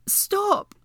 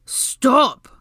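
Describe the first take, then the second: First: Very high, urgent yelp; pained cry. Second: Loud, forceful command; holler. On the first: Hermione shoved into the stone, pained high cry. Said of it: "Hermione grunted in pain". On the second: Draco drowning out Hermione's calls, loud holler. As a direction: holler over someone else's shouting. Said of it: "Draco hollered over her". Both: A narrator's reading.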